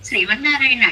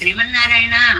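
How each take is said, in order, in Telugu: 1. ఇది ఎగతాళిగా, వ్యంగ్యంగా చెప్తారు. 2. ఇది హృదయపూర్వకంగా, వేదనతో చేసే వేడుకోలులా చెప్తారు. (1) "తెలియక వెటకారంగా చేసిన" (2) "తెలిసి ఆర్తితో చేసిన వాళ్ళని"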